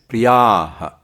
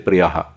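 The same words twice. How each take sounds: First: The vowel is held long. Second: The vowel is said short. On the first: The speaker calls it right. "It's long. So it is priyaha" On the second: The speaker calls it wrong. "they will say priyaha. It's not priyaha"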